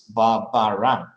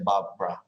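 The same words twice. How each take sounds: First: All three syllables of the name are said. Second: The middle syllable is dropped, giving two syllables. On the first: This is the official form of the name. "officially, so maybe in the passport or the official document" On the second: This is the casual everyday form of the name. "when you pronounce it quickly, you say Barbara, and that's it's a, a reduction"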